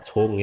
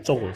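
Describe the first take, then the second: First: CONG with a puff of air after c; correct cong. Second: CONG with no puff of air; plain unaspirated c at the start of CONG; wrong cong. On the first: Teacher correcting students, aspirated initial. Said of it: "seperti ada C H-nya". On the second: Teacher showing students the mistake, unaspirated. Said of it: "salah, cong ya". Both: Shown as a demonstration.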